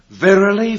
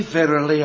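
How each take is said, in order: First: Loud and higher, proclaiming the first verily; booming scripture reading. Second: Somewhat louder, slightly higher, stepping down from the first; emphatic second verily. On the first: Preacher telling the hall to listen, booming proclamation. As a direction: ring it out like a pulpit call. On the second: Preacher reading the verse aloud, firm emphatic echo. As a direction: settle into the verse after the first call. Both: Acted. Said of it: "You listen".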